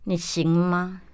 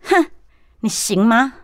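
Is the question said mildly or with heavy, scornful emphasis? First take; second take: mildly; scornful emphasis. First: It is said plainly, without extra emphasis. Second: It is said scornfully, with heavy emphasis.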